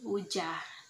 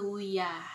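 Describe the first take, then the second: First: The middle consonant is a j sound. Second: The middle consonant is a y sound. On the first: This is how coastal people say it. "jika dilafalkan oleh orang pesisir itu menjadi wujah" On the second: This is how inland people say it. "jika dilafalkan oleh orang pedalaman itu maka menjadi wuya"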